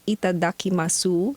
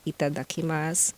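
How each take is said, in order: First: Every letter is sounded out as spelled. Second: It is said the natural spoken way. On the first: "it is spelled as" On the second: "but the pronunciation is"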